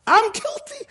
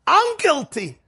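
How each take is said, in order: First: Much higher, rising plea; Moshe repeating guilty. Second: High, pained confession; Moshe pleading guilty. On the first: Moshe repeats his guilt to the sheep, rising higher. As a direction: let the pitch climb up into a wail on guilty. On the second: Moshe admits guilt to the flock, high and pained. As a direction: cry out your guilt in a raised pitch. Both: Retold or imitated. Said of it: "Moshe says this".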